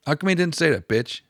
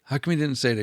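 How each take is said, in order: First: Higher and louder, pressing the point; louder insistent repeat. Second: Said in the usual way. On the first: Shown as a demonstration. Vlogger repeats the question to viewers, louder and higher. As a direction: hammer the question home a second time.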